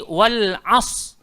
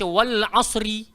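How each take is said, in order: First: The word ends without any r sound. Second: The r is heavy, followed by a vowel. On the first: "tidak menyebut huruf ra di penghujungnya" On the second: "Kita tak baca wal asri, tak macam tu"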